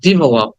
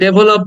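First: The first vowel sounds like 'ih'. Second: The first vowel sounds like 'eh'. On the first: The speaker calls it right. "কিন্তু উচ্চারণটা হবে I" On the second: The speaker calls it wrong. "আমরা এটাকে ডেভেলপ বলি"

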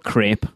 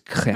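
First: The vowel rhymes with the word rate. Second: The vowel does not rhyme with rate. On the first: The speaker calls it wrong. "The word's not crepe" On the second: The speaker calls it right. "It's crepe"

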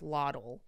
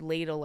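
First: The first vowel sounds like 'lot'. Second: The first vowel sounds like 'lay'. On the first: The speaker calls it wrong. "pronounced the word ladle as loddle" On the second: The speaker calls it right. "the word ladle"

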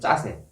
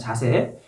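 First: The first consonant is tense and forceful. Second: The first consonant is plain and soft. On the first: This is military slang. "요거를 좀 악센트를 넣어서 짜세라 그랬습니다" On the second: This is the standard everyday word. "그냥 자세"

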